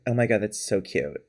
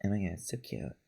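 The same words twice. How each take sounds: First: Soft, low little voice, imitated; a small, quiet mimicked voice; little put-on voice. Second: Very soft, low echo of a little voice; unconscious parroting, tiny and hushed; under the breath. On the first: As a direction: lightly imitate her cutesy little voice, softly. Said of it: "put on the little voice". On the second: Retold or imitated. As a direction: mimic it under your breath, barely audible. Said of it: "under my breath".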